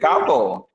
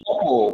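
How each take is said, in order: First: The vowel is the 'ah' sound. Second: The vowel is not the 'ah' sound. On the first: The speaker calls it right. "It is couple" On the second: The speaker calls it wrong. "It is not couple"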